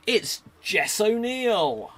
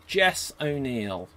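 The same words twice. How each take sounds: First: Slow, higher and louder announcement; dramatic reveal. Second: Said in the usual way. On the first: Acted. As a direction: stretch out the big reveal. Revealing the final werewolf after a delay.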